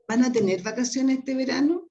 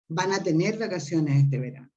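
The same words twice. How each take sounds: First: The pitch rises at the end like a question. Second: The pitch falls at the end like a statement. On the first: It asks whether they will have vacations. "Only intonation is the difference in Spanish" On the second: It states that they will have vacations. "Only intonation is the difference in Spanish"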